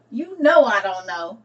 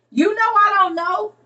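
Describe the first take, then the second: First: Said in the usual way. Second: "You know I don't know" pitched high and loud; high playful protest. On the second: Real, not acted. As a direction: squeal it out playfully.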